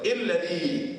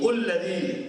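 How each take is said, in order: First: The word begins with an i vowel. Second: The word begins with a u vowel. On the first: "jangan bunyi" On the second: "jangan bunyi"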